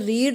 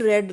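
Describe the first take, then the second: First: The vowel is long, like 'reed'. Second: The vowel is short, like 'red'. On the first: It is the present-tense form. "First form है उसे रीड कहा जाता है" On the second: It is the past or past-participle form. "Second और third form को रेड बोला जाता है"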